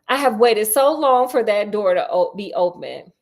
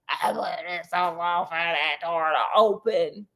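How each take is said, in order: First: It is said in a normal voice. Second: It is said in an eerie, rasping voice.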